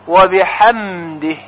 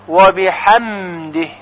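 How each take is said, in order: No difference in how they are said.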